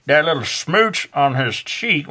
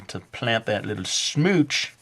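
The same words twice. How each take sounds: First: Slow, higher drawling Southern accent. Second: Said in the usual way. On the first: Shown as a demonstration. Art teacher slipping into Southern accent describing the kiss. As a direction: stretch out the smooch in a Southern drawl. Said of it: "am I doing, like, a Southern accent?". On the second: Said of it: "a Southern accent?".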